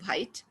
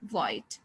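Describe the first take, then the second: First: It starts with a breathy H sound. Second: It starts with a plain W sound. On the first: The speaker calls it wrong. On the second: The speaker calls it right. "only the sound of W"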